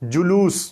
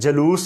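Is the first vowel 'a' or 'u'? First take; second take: u; a. First: The first vowel is a 'u' sound. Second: The first vowel is an 'a' sound. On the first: The speaker calls it right. "दुरुस्त तलफ़ुज़ होगा जुलूस" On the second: The speaker calls it wrong. "जलूस नहीं"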